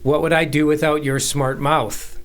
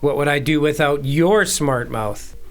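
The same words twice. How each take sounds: First: The stress is on "mouth". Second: The stress is on "your".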